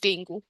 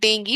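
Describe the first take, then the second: First: The word ends with an 'oo' sound. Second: The word ends with an 'ee' sound. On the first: The speaker calls it wrong. "Not डेंगू" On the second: The speaker calls it right. "So it is डेंगी not डेंगू"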